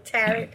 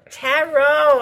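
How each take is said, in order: First: Tarot said evenly, rhyming with carrot; alternative pronunciation. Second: Tarot said loud and higher, ending in a long OH; disliked pronunciation. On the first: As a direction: say tarot casually, to rhyme with carrot. Contrasts ways of saying tarot. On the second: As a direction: push out Tarot as TA-roh, mocking it. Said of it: "I hate that". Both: Shown as a demonstration.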